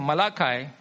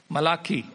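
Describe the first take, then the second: First: Malachi ending in "kai", rhyming with sky; Malachi with a long "eye" ending; English pronunciation of Malachi. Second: Malachi ending in "kee", rhyming with key; Malachi with an "ee" ending instead of "eye"; Hebrew pronunciation of Malachi. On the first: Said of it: "in Hebrew actually it's Malachi". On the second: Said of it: "in Hebrew actually it's". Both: Shown as a demonstration.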